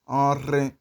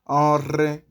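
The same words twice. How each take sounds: First: The r sound is rolled with the tongue. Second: The r sound is rolled with the tongue.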